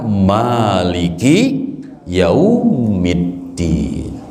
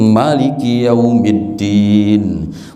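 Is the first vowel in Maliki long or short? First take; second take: long; short. First: The first vowel of Maliki is long. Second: The first vowel of Maliki is short. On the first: "maka mimnya dibaca panjang" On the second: "boleh dipendekkan gitu"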